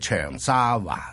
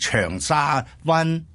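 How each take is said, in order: First: The final syllable is said with a changed tone. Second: The final syllable keeps its unchanged, citation tone. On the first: The speaker calls it right. "應該係長沙灣" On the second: The speaker calls it wrong. "老師錯"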